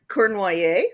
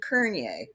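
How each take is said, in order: First: The name has its original French pronunciation. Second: The name is said as Kernier. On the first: This is the family's original form of the name. "originally the name was Cor- Cournoyer, French Canadian" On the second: This is how the Ontario branch says the name. "we changed the pronunciation and the spelling to Kernier"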